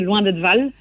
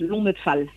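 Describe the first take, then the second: First: The second word begins with a v sound. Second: The second word begins with an f sound. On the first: This is a regional dialect habit. "pour moi, c'est Loin d'être Val" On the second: This is how other people say it. "Pour d'autres personnes, ça peut être Lonette Fal"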